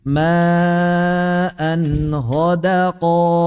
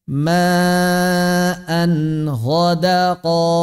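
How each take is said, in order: Both takes have the same delivery.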